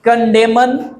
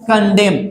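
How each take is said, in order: First: The final n sound is pronounced. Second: The final n sound is silent. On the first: The speaker calls it wrong. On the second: The speaker calls it right.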